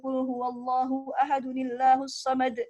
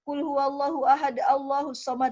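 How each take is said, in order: First: Ahad runs straight into Allahus with an added nun. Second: There is a stop between ahad and Allahus. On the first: The speaker calls it right. "Harusnya begitu bacanya" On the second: The speaker calls it wrong. "itu salah"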